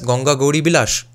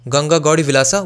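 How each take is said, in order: First: The last word starts with a b sound. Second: The last word starts with a v sound. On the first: This is how Bengali speakers would say it. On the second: This is the title as originally given.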